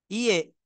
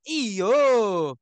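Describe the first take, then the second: First: The word ends in an 'e' vowel. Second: The word ends in an 'o' vowel. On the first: "orang Bugis" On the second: "Orang Sumatera"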